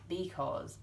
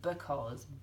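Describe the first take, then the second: First: The first syllable has a full 'bee' vowel. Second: The first syllable has a weak, reduced vowel. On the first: "you'd say that's a B. ... We actually don't say it like that in real life" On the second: "If you're reading that as part of the sentence, you say"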